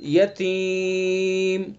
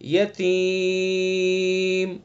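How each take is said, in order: First: The long vowel is held for three counts. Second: The long vowel is held for five counts. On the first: "तीन अलिफ हो गए" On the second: "पांच अलिफ हो गए"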